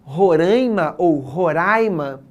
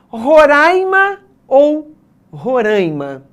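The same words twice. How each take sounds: First: Roraima said slowly, first nasal "rãi", then open "ra"; slow careful demo of both "Roraima" sounds; both ways shown. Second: Roraima said slowly, first with open "ra", then with nasal "rãi"; slow careful demo of both "Roraima" sounds; two ways to say it. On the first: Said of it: "No caso de". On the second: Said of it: "Qual o jeito correto de pronunciar?". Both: Shown as a demonstration.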